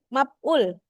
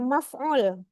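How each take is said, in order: First: The middle consonant is a p sound. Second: The middle consonant is an f sound. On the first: "bunyi-bunyi F itu dibaca dengan P" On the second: "dia nggak membaca maf'ul"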